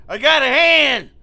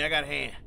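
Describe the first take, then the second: First: Loud, slow, high yell; drawn-out victory yell; triumphant shout. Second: Said in the usual way. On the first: Real, not acted. Repeats line, then yells it.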